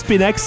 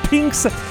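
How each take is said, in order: First: An extra vowel is said before the x. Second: No extra vowel is said before the x. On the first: "Je sais pas si on le prononce Spinax" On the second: "mais moi, je prononce Spinx"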